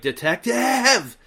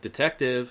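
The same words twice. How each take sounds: First: It is said loudly and forcefully. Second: It is said quietly and subtly.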